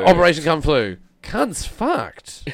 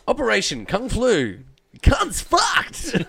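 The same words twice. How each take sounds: First: It is said flatly, without enthusiasm. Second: It is said with more enthusiasm.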